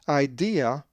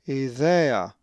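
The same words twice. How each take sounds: First: The stress is not on the middle syllable. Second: The stress is on the middle syllable. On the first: The speaker calls it wrong. "If you said idea, then you are wrong" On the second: The speaker calls it right. "the accent is over the epsilon and it is idea"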